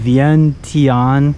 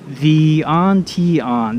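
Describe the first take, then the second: First: The name is said with three syllables. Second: The name is said with four syllables. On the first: The speaker calls it right. "It's probably only three" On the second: The speaker calls it wrong. "That's four syllables, though"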